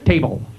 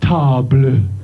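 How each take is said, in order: First: It is said with an English pronunciation. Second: It is said with a French pronunciation.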